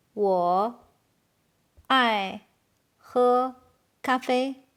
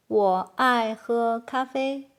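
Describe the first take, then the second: First: Each word alone, long pauses between. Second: Said in the usual way. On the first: Shown as a demonstration. Teacher translating "I love to drink coffee", halting after each word. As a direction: isolate every word for learners. Slow model, then natural take.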